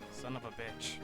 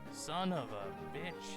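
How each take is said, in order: First: It is said quieter, with less annoyance. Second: It is said louder, with more annoyance.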